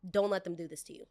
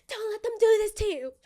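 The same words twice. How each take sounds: First: Said in the usual way. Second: Very high, loud squeal; high-pitched mock-desperate self-warning; frantic inner voice. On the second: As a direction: plead with yourself in a high, put-on wail. Inner voice escalates, repeated high.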